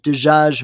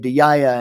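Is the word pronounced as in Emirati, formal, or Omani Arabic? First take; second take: formal; Emirati. First: It is said with formal Arabic pronunciation. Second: It is said with Emirati dialect pronunciation.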